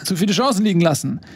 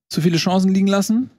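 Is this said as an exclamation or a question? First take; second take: exclamation; question. First: It is said as a firm exclamation. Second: It is said as a question, rising. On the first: The speaker asserts that this happened. "ein Ausrufezeichen" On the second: The speaker is asking whether this happened. "aus dem Fragezeichen"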